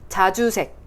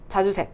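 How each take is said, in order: First: The j sounds are forceful and crisply articulated. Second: The j sounds are soft and weakly articulated. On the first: The speaker calls it right. "이렇게 힘을 많이 뱉어주시면" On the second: The speaker calls it wrong. "이렇게 돼버리는 건데"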